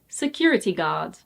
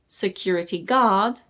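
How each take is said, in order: First: The stress falls on the first word. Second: The stress falls on the second word. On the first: The speaker calls it right. "the first word is stressed" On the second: The speaker calls it wrong. "it's not security guard"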